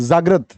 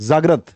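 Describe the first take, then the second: Both takes have the same delivery.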